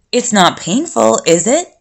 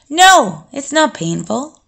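First: Mildly timid, lifting into a question. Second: Higher, emphatic no, then easing off; assured denial. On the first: Boy asking the vampire about his tragedy, timidly. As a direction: ask tentatively, with a touch of timidity. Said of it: "he asked timidly". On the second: Vampire answering the boy's question about pain, assured. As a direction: firmly answer the worry. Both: A narrator's reading.

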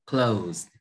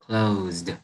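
First: "Closed" said like close, no D heard; ending without D. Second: "closed" ending in a voiced ZD; final D sound. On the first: Teacher setting up the ending contrast, D-less "Closed". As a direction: leave the D off "Closed". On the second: Teacher pointing out âm đờ, voiced D closing "closed". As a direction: finish "closed" on a clear voiced D. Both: Shown as a demonstration. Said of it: "Âm đờ nè".

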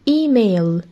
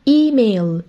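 No difference in how they are said.

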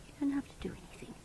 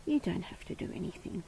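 First: Quick soft whisper; hushed quick reassurance. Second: Said in the usual way. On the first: Real, not acted. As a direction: breathe it out fast and gentle. Soothing the pet, repeats.

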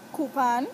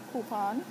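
First: "coupon" as KOO-pahn, loud with a rising end; "coupon" pronounced koo-pahn, emphatic; Saint Croix "coupon". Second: "coupon" said lightly, less punched; second-take "coupon". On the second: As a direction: say "coupon" casually, at an easy volume. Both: Shown as a demonstration. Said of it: "in my accent".

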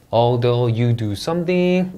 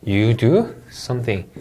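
First: Slow English with a rise at the end; rising tune. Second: Slow English, falling on the end; falling tune. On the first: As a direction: draw it out and lift the end. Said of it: "올려 읽고요". (끝을 올려 천천히 읽기) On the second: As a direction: let "You do something." fall to close. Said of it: "하고 내려 읽어주시면 되겠습니다". (끝을 내려 읽기) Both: Shown as a demonstration.

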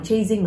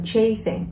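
First: First "chasing" with a buzzing z in the middle; wrong pronunciation demo. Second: "chasing" with a clean s in the middle; correct pronunciation demo. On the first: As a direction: say "chasing" wrongly as "chay-zing". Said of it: "Không đọc là chasing". (đọc sai "chasing" thành "chây-zing") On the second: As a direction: say "chasing" as "chay-sing". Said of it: "mà là chasing". (đọc đúng "chasing" với âm s ở giữa) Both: Shown as a demonstration.

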